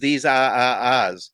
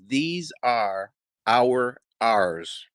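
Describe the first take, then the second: First: The R sounds are dropped, Boston style. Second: The R sounds are pronounced clearly. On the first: "the way we say that is" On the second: "one of the hardest sentences for me to say"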